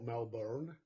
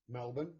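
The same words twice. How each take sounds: First: It is said imitating the listener's accent. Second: It is said in her own usual accent.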